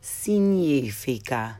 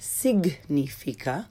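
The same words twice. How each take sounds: First: The GN is said like NY in canyon. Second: The GN is a hard G followed by N. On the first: The speaker calls it right. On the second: The speaker calls it wrong.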